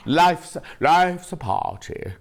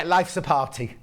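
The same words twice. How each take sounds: First: Slow, drawn-out posh imitation; lightly posh, slow catchphrase. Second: Said in the usual way. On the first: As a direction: savour it like a posh presenter. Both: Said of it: "it's very posh".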